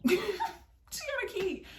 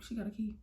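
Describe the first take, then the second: First: High, drawn-out mock excuse; hammed-up squeaky answer; comic squeal. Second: Said in the usual way. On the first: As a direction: squeak it out slowly, helplessly amused. Repeats reply as comic squeal.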